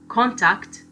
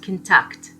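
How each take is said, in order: First: The stress is on the first syllable. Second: The stress is on the second syllable. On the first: It is a noun. "this is a noun" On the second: It is a verb. "a verb"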